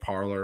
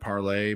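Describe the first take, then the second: First: The name ends with a 'lor' sound. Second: The name ends with a 'lay' sound. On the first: This is how the name's spelling reads. "it was like spelled like parlor" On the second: This is how others pronounce the name. "they were p- pronouncing it parlay"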